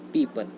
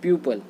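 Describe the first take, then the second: First: The first vowel sounds like 'ee'. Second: The first vowel sounds like 'yoo'. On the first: The speaker calls it right. "ये होता है पीपल" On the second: The speaker calls it wrong. "प्यूपल नहीं होता है"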